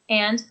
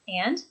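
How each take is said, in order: First: The voice is flat and falls. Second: The voice rises at the end. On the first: The listener is not interested and wants the speaker to stop. The speaker calls it wrong. "with that flat sort of falling intonation really indicates disinterest" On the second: The listener is engaged and wants to hear more. The speaker calls it right. "with the rising intonation on those words, it does just the opposite"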